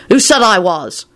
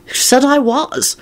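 First: Said in the usual way. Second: High, slow, scowling retort. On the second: A narrator's reading. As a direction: snap it back with a scowl. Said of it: "with a horrible scowl".

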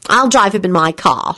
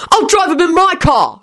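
First: Mildly determined offer. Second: High-pitched, contained shout. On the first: Elizabeth offering to drive Teddy, determined. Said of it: "she answered determinedly". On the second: William cutting in with dismay, shouting. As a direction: burst in with a much higher voice. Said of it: "shouted William". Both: A narrator's reading.

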